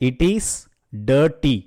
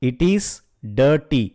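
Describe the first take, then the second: No difference in how they are said.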